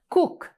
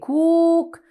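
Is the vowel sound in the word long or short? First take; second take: short; long. First: The vowel is a short oo sound. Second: The vowel is a long oo sound. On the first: The speaker calls it right. "It's a short oo" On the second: The speaker calls it wrong. "We don't say cook"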